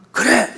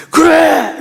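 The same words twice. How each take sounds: First: Said in the usual way. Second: "그래!" barked out higher and louder; forceful yes. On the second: Shown as a demonstration. Pastor answering his wife's doubt, much too forcefully. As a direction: overanswer it, much too hard. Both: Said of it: "어떤 때는 아주 세게 대답해".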